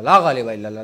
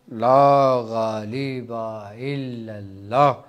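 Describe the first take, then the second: First: It is said quickly and hurriedly. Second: It is said slowly and calmly.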